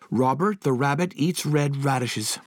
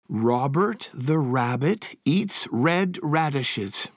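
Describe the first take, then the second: First: It is said faster than normal speed. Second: It is said at a normal, steady speed.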